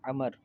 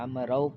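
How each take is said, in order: First: The name ends on the consonant 'r'. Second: The name ends with an added 'a-oo' vowel sequence. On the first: The speaker calls it right. "लफ्ज़ है अमर है ... इसको पढ़ा नहीं जाएगा" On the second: The speaker calls it wrong. "या अमरऊ पढ़ते हैं, तो ये गलत है"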